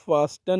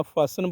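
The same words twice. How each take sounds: First: "फास्टन" with an audible T after S; wrong, T sounded. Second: "फासन" with S straight into the last syllable; silent T. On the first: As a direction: say "फास्टन", pronouncing the T. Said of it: "नहीं बोलना". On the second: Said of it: "बोलना है". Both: Shown as a demonstration.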